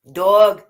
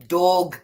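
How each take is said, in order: First: "Dog" loud, short British vowel. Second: "Dog" with a lower American vowel, "dawg". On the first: Showing the local way to say dog, British accent. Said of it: "instead of dog". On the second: Showing how Americans say dog, American accent. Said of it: "Americans say dog instead of dog". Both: Shown as a demonstration.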